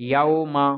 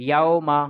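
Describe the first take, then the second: No difference in how they are said.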